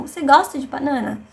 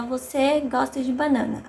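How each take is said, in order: First: "Você gosta de banana?" said as a question, voice lifted and louder; question tune. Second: Said in the usual way. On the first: Shown as a demonstration. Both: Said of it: "a gente só muda a entonação".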